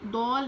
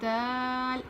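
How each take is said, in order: First: The vowel is rounded like au. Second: The vowel is an open a. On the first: The speaker calls it wrong. "दौल नहीं" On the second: The speaker calls it right. "बल्कि दाल"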